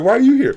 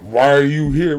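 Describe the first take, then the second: First: It is asked in a happy, friendly tone. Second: It is asked in a hostile, suspicious tone.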